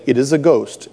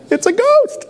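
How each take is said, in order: First: Said in the usual way. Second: Very high, hammed-up shriek of "It's a ghost!" through laughter; mock terrified cry. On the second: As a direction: squeal "It's a ghost!" like a panicked disciple, laughing. Acting disciples' frightened cry.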